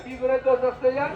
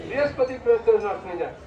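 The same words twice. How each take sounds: First: Fast, with the tune rising on "হয়ে"; quick quiz question. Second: Fast, stress on "বৃহস্পতি", falling to a close; answer given. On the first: Teacher quizzing listeners with a fast rising question. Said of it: "এই নরসিংহদেবের নাম উচ্চারণ করলে". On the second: Teacher answering his own quiz with a firm fall. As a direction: state the answer, leaning on "বৃহস্পতি". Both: Shown as a demonstration.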